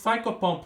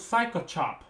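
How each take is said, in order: First: The last syllable starts with a p sound. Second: The last syllable starts with a ch sound. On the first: The speaker calls it right. "it's Psychopomp" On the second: The speaker calls it wrong. "not Psychochop"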